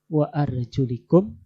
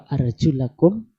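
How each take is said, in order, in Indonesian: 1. Akhiran itu memiliki vokal 'i': arjulikum. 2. Akhiran itu memiliki vokal 'a': arjulakum. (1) "ketika dibaca jar" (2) "ketika dibaca an-nasab"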